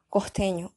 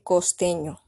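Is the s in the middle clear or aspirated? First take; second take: aspirated; clear. First: It is said fast with the s aspirated. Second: It is said carefully with a clear s.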